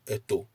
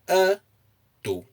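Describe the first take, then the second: First: The pitch is low on both syllables. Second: The pitch is high on the first syllable. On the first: It means a mother. "If you use no intonation at all" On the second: It means he is muscular. "if you place the intonation on the a"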